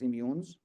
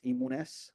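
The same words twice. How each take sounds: First: The name has an American-style pronunciation. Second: The name is pronounced phonetically, as spelled. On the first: "When I'm talking with Americans" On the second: "like the phonetic type"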